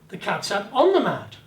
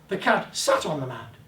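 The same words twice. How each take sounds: First: The word on carries the emphasis. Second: The word sat carries the emphasis. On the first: It was on the mat, not elsewhere. "On the mat, not elsewhere" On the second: It sat rather than stood. "Didn't stand beside it, he sat on it"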